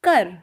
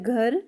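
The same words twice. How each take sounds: First: कर, the word for home, with plain k in place of gh; Punjabi pronunciation. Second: घर opening on voiced, aspirated gh; Hindi pronunciation. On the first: Teacher contrasts Punjabi for learners, home pronounced कर with k. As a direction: say कर with an unaspirated k, Punjabi style. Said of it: "इसको पंजाबी में बोलते हैं". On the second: Teacher contrasts Hindi for learners, घर with a voiced gh. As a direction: pronounce घर as in Hindi, with gh rather than k. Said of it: "Hindi में बोला जाता है". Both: Shown as a demonstration.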